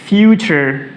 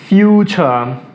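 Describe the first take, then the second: First: It is said in an American accent. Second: It is said in a British accent. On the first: "अगर हम American हैं तो हम कहेंगे" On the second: "और अगर हम ब्रिटिश हैं, ... वो कहेंगे"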